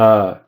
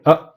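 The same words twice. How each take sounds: First: The vowel fades out without a throat stop. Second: The vowel ends with an abrupt throat stop. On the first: "it's different than uh" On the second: "I'm going uh"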